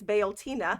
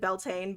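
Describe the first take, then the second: First: The name starts 'bee-ol' with three syllables. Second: The name has two syllables, starting like 'bell'. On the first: "It's Beoltina" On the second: "I would pronounce it Beltane, but that's not correct"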